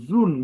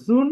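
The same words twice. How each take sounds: First: জুন with nicely rounded lips; the correct জুন, lips pursed round on the u. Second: জুন with no lip rounding; the faulty জুন, u said without pursing the lips; unrounded lips. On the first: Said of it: "ঠোঁট গোল করলে কিন্তু সুন্দর হয়". (ঠোঁট গোল করে সুন্দর জুন) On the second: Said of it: "ঠোঁট না গোল করে". (ঠোঁট গোল না করে জুন) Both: Shown as a demonstration.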